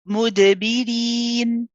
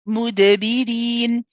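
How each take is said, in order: Both takes have the same delivery.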